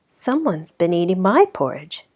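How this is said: A soft, low, exclaiming voice.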